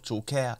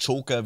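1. Die Betonung liegt auf der zweiten Silbe. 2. Die Betonung liegt auf der ersten Silbe. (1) "nicht auf Joker" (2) "wird einfach auf das Cho betont"

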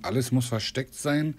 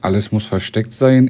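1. Die Aufnahme ist leiser, mit reduziertem Gain. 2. Die Aufnahme ist lauter, voll aufgedreht. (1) "Jetzt schrauben wir den Gain mal runter. Den mache ich mal auf 50%" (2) "Jetzt habe ich auf 100 gemacht"

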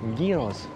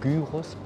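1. Das Wort wird auf die griechische Art ausgesprochen. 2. Das Wort wird auf die deutsche Art ausgesprochen. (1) "es heißt auf Griechisch" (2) "nicht Gyros"

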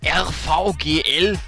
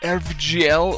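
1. Die Buchstaben werden mit deutschen Buchstabennamen gesprochen. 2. Die Buchstaben werden mit englischen Buchstabennamen gesprochen.

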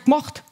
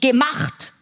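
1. Das Wort wird auf eine Silbe verkürzt. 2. Das Wort wird voll gesprochen, mit zwei Silben. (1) "wird in Bayern so gemacht. Eine Silbe gespart" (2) "ein Wort wie"

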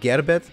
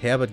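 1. Der Name beginnt mit einem G-Laut. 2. Der Name beginnt mit einem H-Laut. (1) "dann kommt dann immer ein G raus" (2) "anstatt Herbert"

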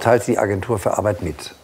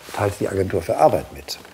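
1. Die Betonung liegt nicht auf 'Agentur für Arbeit'. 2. Die Betonung liegt auf 'Agentur für Arbeit'. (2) "Die Betonung liegt auf der Agentur für Arbeit"

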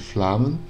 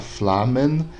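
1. O e é omitido, juntando m e n. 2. O e da segunda sílaba é pronunciado. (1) "esse E desaparece. A gente junta o M com o N" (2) "Ele pronuncia as duas formas"

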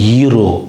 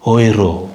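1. இந்த வார்த்தை 'ee' உயிர் ஒலியில் தொடங்குகிறது. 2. இந்த வார்த்தை 'oy' இரட்டை உயிர் ஒலியில் தொடங்குகிறது. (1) "இங்கிலீஷில் வந்து ஈரோ மணி மணி வேல்யூ ஈரோன்னு சொல்கிறாங்க" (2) "ஆனால் இந்த ஓய்ரோ ஓ ஓய் ஓய்ரோ அப்படின்னு வச்சுருக்கணும்"

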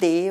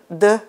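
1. Der Konsonant ist stimmlos, wie im Schweizerdeutschen. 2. Der Konsonant ist stimmhaft, wie im Standarddeutschen. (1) "So etwas wie «b» und «d» und «g» ist eben nicht" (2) "wie im Hochdeutsch"

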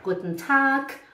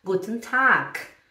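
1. O som final de Tag é um K. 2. O som final de Tag é um K.

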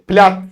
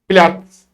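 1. "tz" "ts" olarak söylenmez. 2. "tz" "ts" olarak söylenir. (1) "Platz değil" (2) "TS yine aynı muhabbet"

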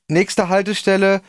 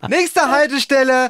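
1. Die Stimme klingt angespannt und nervös. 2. Die Stimme klingt aufgeregt und euphorisch. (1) "ganz nervös so, erste Mal in einem Tonstudio" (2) "Total cool, total euphorisch"

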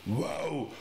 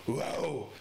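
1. Das Bellen ist tief und laut. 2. Das Bellen ist tief und laut.

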